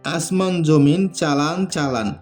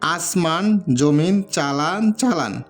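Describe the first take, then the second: First: It is said fast. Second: It is said slowly.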